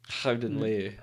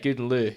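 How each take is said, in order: First: The first word begins with a throaty breathy sound. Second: The first word begins with a hard G sound. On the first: The speaker calls it right. "it's actually Howden Leu is how you pronounce it" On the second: The speaker calls it wrong. "it looked like Good and Lou"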